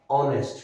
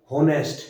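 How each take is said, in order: First: "ऑनेस्ट" starting straight on the vowel, no h; silent h. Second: "हॉनेस्ट" with an audible h at the start; wrong, h sounded. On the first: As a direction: say "ऑनेस्ट" with the h dropped. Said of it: "एच is silent". ("ऑनेस्ट", ह के बिना स्वर से शुरू) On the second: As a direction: mispronounce honest as "हॉनेस्ट", sounding the h. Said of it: "ये नहीं बोला जाता". ("हॉनेस्ट", शुरू का ह बोलकर) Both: Shown as a demonstration.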